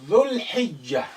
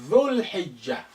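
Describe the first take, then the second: The two takes are said the same way.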